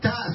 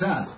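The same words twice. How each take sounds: First: It starts with a hard t sound. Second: It starts with a soft th sound. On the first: "אתה בדגושה" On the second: "ואחר כך אתה רפויה"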